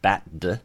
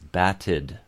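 First: The ending d follows the t with no vowel. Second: A short vowel comes between the t and d. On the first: The speaker calls it wrong. "It's not bat-d" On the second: The speaker calls it right. "it's batted, right? So we get that little I"

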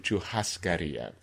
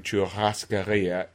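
First: The double R is a breathy H-like sound. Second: The double R is a rolled trill. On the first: This is the later, Brazilian form of the sound. "and then to churrascaria" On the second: This is the older form of the sound. "it started as churrascaria"

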